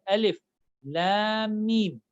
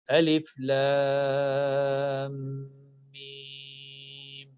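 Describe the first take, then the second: First: Lam's final M is skipped into the next word. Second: Each letter name is said fully and separately. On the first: The speaker calls it wrong. "they ignore this M at the end and they directly goes towards this M ... which is wrong" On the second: The speaker calls it right. "pronounce the name of each letter properly and completely"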